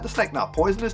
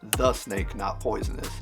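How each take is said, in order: First: It sounds like arguing with a friend. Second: It sounds like a flat, neutral statement.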